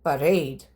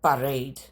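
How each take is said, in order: The two takes are said the same way.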